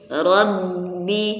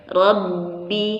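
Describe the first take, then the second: The two takes are said the same way.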